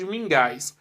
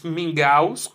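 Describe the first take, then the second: First: "mingais" with an -ais ending; wrong plural. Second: "mingaus" with an -aus ending; correct plural. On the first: Teacher testing pupils with the wrong plural, "mingais" ending in -ais. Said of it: "ou você diz mingais?". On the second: Teacher offering pupils the right plural choice, "mingaus" ending in -aus. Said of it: "Você diz mingaus". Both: Shown as a demonstration.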